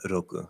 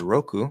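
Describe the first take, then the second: First: The R is a flap between D and L. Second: The R is an English-style R. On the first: "it's kind of like ro, ro, ro, ro, something sort of like that" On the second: "which I'm saying that very English uh, accent way"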